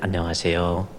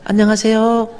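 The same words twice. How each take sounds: First: It is said at an ordinary pitch. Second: It is said at a high, bright pitch.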